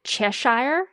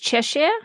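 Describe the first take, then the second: First: The name is said the American way. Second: The name is said the British way. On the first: The speaker calls it wrong. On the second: The speaker calls it right.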